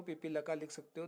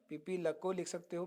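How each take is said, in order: First: Ends पीपी लका with a clear final a; reading ending laka. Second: Ends पीपी लको with a clear final o; reading ending lako. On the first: Teacher showing students the second accepted spelling, clearly pronounced. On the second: Teacher showing students the first accepted spelling, clearly pronounced. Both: Shown as a demonstration. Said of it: "दोनों सही है".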